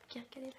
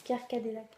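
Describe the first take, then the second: First: "Pierre Cadillac" whispered and garbled, much softer; mumbled whisper. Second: Said in the usual way. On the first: Shown as a demonstration. Vlogger failing to say the brand name, whispering it. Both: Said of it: "j'arrive pas à le dire".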